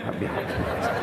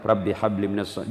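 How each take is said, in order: First: A soft secret prayer whispered close. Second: Said in the usual way. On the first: Shown as a demonstration. Father whispering a prayer over his child. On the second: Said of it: "Jami kalau bapaknya".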